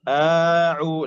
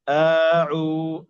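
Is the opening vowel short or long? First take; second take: long; long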